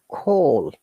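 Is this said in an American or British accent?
British. It is said with a British accent. "in British English, we pronounce it"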